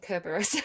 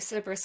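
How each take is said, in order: First: The word begins with a hard K sound. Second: The word begins with a soft S sound.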